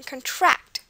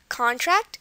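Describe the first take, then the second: First: The stress is on the second syllable. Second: The stress is on the first syllable. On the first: It is a verb. "when it's the verb" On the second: It is a noun. "where you put the stress on con is the verb, or the noun, sorry"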